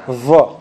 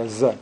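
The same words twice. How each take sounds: First: الظا with heavy emphatic th-like ظ; correct emphatic ẓā. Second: الزا with a plain z, said low; wrong plain z. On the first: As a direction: model الظا with tongue between the teeth, heavy vowel. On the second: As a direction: show the mistaken z in الزا. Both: Shown as a demonstration. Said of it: "Not زاهرة".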